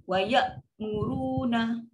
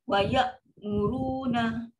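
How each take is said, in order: The two takes are said the same way.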